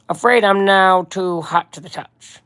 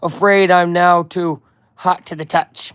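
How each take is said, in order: First: Slow, measured crime-boss voice; lightly voiced mob boss, drawn-out words; Kingpin. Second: Said in the usual way. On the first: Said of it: "I gotta do my Kingpin voice again". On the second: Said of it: "wait, I gotta do my Kingpin voice again".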